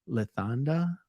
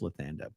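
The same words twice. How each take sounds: First: The name is said with German pronunciation. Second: The name is said with English pronunciation. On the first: "if this was a German name, would it be Lathanda?" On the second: "I think it's Lathanda"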